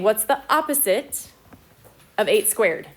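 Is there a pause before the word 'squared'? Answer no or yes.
no. It runs smoothly with no pause before squared. Only the eight is squared, then made negative. The speaker calls it wrong. "it thinks you're saying"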